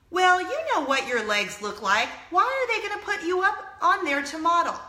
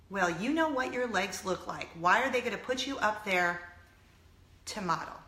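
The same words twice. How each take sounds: First: Higher, emphatic mom imitation; scornful mother. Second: Lower, sober echo of a put-down; dismayed repeat. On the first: Mom doubting her daughter can model, scornful mother. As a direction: voice a critical mother driving the put-down home. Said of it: "And her mom responds". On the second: Retold or imitated. Repeating a mother's words to viewers, dismayed. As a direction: repeat it softly, letting the hurt sink in. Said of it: "That's what her mother said".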